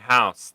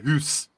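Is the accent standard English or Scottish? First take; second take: standard English; Scottish. First: It is said in a standard English accent. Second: It is said in a Scottish accent.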